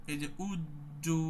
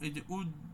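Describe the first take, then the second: First: উজ্জু drawn out slowly with জ্জ held; slowed demo of উজ্জু; slow held jim. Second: উজ- stopped abruptly on জ; stopped demo of উজ-; cut-off jim. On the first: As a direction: hold the stop in উজ্জু. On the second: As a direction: freeze the sound on উজ. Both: Shown as a demonstration. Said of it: "আটকায় দেওয়ার চেষ্টা করতে হবে".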